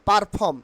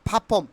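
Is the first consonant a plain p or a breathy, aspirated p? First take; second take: plain p; breathy p. First: It starts with a plain, unaspirated p sound. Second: It starts with a breathy, aspirated p sound. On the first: The speaker calls it wrong. "Not পারফর্ম" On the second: The speaker calls it right. "ফয়াকারে ফা"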